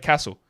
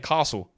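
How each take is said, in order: First: It is said the way Victorian Australians say it. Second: It is said in a posh English-sounding way. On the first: "in Victoria, here in Australia, my state where I live, we say Castle" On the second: "other states call it, say, Castle, like they're English"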